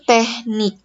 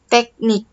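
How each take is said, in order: First: The middle consonant is an h sound. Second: The middle consonant is a k sound. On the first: The speaker calls it wrong. "lafal salahnya itu teknik. ... Di lafal yang salah kita menggunakan huruf H" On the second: The speaker calls it right. "lafal yang benar adalah teknik. ... di lafal yang benar menggunakan huruf K"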